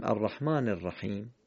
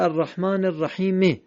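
First: الرحیم closed on a bare m, "rahim"; silent ending on الرحیم. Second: الرحیم finished with a short e, "rahime"; final vowel voiced on الرحیم. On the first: Teacher showing what we say, bare m ending الرحیم. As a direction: drop the vowel and end الرحیم on m. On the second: Teacher showing what is written, short e voiced ending الرحیم. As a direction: sound the written e after the m of الرحیم. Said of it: "نوشته". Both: Shown as a demonstration.

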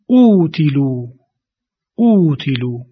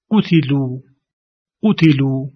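First: اوتیلو with the opening u held long; stretched long uu. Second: قتلو with a short u on ق; short damma demo. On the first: Teacher stretching the long uu in اوتیلو. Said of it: "همون ضمه رو بیشتر امتداد دادیم". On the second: Teacher demonstrating the short damma in قتلو. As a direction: say قتلو with a brief u. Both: Shown as a demonstration.

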